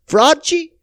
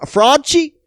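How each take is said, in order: First: "Fraudci" said firmly and higher, fraud merged into Fauci; pun name settled. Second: "Fraudci" tried out hesitantly, like fraud plus Fauci; pun name. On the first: Podcaster settling on his mocking nickname. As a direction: land "Fraudci" with confidence. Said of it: "Fra-, Fraudci?". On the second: Podcaster coining a mocking nickname for Fauci. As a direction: test "Fraudci" as a new coinage. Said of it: "F-, uh, Frauci?". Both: Shown as a demonstration.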